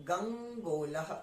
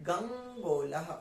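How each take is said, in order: The two takes are said the same way.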